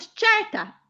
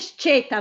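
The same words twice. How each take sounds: First: The E vowel is said open. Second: The E vowel is said closed. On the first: The speaker calls it right. "ma io dico sceta" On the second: The speaker calls it wrong. "perché lei dice sceta"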